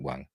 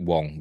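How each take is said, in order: First: The vowel is open, rhyming with 'bang'. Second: The vowel is rounded, rhyming with 'song'. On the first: This is how the speaker says it. "I pronounce it Wang" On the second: This is how the actor himself says it. "he pronounces it Wong"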